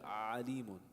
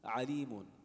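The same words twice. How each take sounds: First: The first vowel is held and dragged out. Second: The first vowel is touched briefly, one beat. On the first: The speaker calls it wrong. "You don't want to hold it like drag. ... That's that would be incorrect" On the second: The speaker calls it right. "just one haraka"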